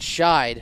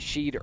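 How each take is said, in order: First: The name's vowel is not an 'ee' sound. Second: The name's vowel is an 'ee' sound. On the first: The speaker calls it right. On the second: The speaker calls it wrong.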